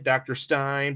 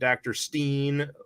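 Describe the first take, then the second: First: The vowel in Stein sounds like 'mine'. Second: The vowel in Stein sounds like 'mean'. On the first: The speaker calls it right. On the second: The speaker calls it wrong.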